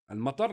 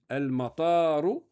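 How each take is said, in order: First: The second vowel is said short. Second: The second vowel is said long. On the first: It means the rain. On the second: It means the airport.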